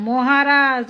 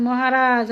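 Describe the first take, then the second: No difference in how they are said.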